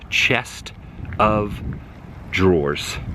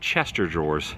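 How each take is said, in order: First: Chest and of are said as separate words. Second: Chest and of run together into one word. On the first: The speaker calls it right. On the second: The speaker calls it wrong.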